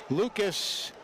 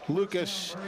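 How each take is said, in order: Both takes have the same delivery.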